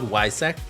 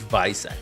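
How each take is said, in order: First: The name begins with a W sound. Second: The name begins with a V sound. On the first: The speaker calls it wrong. "So it's not Wysac" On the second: The speaker calls it right. "In German, the W is a V"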